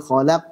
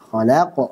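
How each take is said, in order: First: The final q ends flat with no bounce. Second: The final q ends with an echoing bounce. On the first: The speaker calls it wrong. "khalaq salah" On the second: The speaker calls it right.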